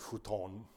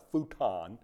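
First: It is said with a Japanese pronunciation. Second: It is said with an American pronunciation.

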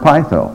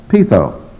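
First: It uses an older scholarly Greek pronunciation. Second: It uses the modern Greek pronunciation. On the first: "I learned to pronounce the word pytho" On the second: "I've switched over to a modern Greek, and now it's pytho"

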